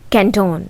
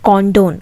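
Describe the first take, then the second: First: The first syllable sounds like 'can'. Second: The first syllable sounds like 'con'. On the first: The speaker calls it right. "ಕ್ಯಾನ್ ಸ್ವಲ್ಪ ಕ್ಯಾನ್ ಅಂತ pronounce ಮಾಡಬೇಕು" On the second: The speaker calls it wrong. "Not ಕಾಂಡೋನ್"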